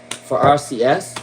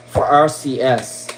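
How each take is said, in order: Both takes have the same delivery.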